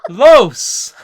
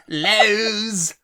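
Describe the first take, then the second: First: It sounds like the Spanish article los. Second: It sounds like the hardware store name Lowe's. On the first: The speaker calls it right. "Los. Not Lowe's" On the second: The speaker calls it wrong. "Lowe's. The hardware store"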